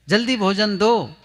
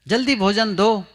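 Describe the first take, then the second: The two takes are said the same way.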